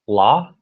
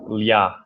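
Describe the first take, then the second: First: The L is hard, without a y-glide. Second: The L is soft, with a y-glide. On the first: The speaker calls it right. "this is a hard L" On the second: The speaker calls it wrong. "sometimes comes out as like lia"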